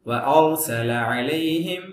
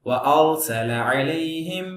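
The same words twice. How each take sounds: No difference in how they are said.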